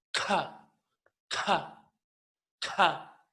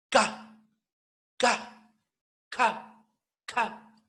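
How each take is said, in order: First: K con soplo de aire; K aspirada. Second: K golpeada y fuerte; K explosiva. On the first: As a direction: suelta la K soplada. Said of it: "K aspirada". (K aspirada) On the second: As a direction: golpea la K con fuerza. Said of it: "Ahora K golpeada, explosiva". (K explosiva, con golpe) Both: Shown as a demonstration.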